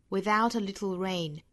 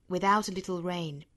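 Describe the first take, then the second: No difference in how they are said.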